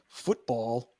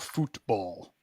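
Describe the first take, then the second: First: It is said with an American English pronunciation. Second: It is said with a Spanish-style pronunciation. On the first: It means the American game with the oval ball. "Football, American style" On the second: It means soccer, the game played with the feet. "Spanish pronunciation"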